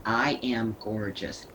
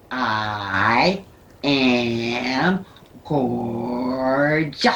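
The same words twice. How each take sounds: First: Said in the usual way. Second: "I am gorgeous" drawn out, every sound overenunciated and louder; accentuate each letter. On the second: Shown as a demonstration. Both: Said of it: "Accentuate each letter".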